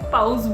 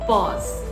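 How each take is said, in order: First: The vowel sounds like 'ow' in mouse. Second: The vowel sounds like 'aw' in law. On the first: The speaker calls it wrong. "मैं इसको personally पाउज बोलती थी। सोचती थी कि माउस होता है" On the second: The speaker calls it right. "But this is actually पॉज।"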